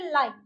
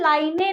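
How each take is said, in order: First: The word ends on the n sound. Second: An extra vowel sound follows the final n. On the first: The speaker calls it right. "हम उसको बोलेंगे लाइन। न पे आके रुक गया" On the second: The speaker calls it wrong. "हम उसको लाइनें नहीं बोलेंगे"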